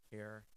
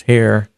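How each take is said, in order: First: Barely audible, as if the gain is cut; gain turned down. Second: Gain turned up. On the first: Reviewer demonstrating the gain control, very faint. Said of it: "you can control the gain". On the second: Reviewer demonstrating the gain control, loud and boosted. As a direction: come through loud and boosted. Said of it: "versus here". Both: Shown as a demonstration.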